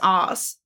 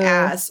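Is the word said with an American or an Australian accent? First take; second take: Australian; American. First: It is said with an Australian vowel. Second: It is said with an American vowel. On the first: "because we say it as ass" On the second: "I say ass all the time, which is not how we say it"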